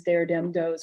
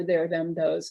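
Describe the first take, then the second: First: "there dem does" started with hard d sounds. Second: Said in the usual way. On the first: Shown as a demonstration. Lecturer showing Wisconsin speech, "there dem does" with d for th. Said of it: "Wisconsin, there's".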